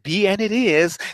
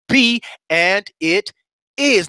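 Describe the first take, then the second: First: It is said flatly, casually and without conviction. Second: It is said forcefully, with conviction and passion. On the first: The speaker is not really committed. The speaker calls it wrong. "That that's that's a passive approach" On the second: The speaker truly means it. The speaker calls it right. "Now you gotta mean that when you say it"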